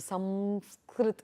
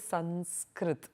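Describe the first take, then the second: First: The nasal before the s is an m. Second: The nasal before the s is a dental n. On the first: This is how southern speakers say it. "In the south, they would tend to keep it as a makara" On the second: This is how northern speakers say it. "the Anuswara would tend to have more of the Dantya pronunciation, which is what the North Indians tend to do"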